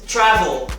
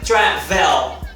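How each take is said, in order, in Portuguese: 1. A vogal antes do L final é reduzida. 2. A vogal antes do L final é plena. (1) "esse E entre o V e o L tem um schwa" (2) "não é travel"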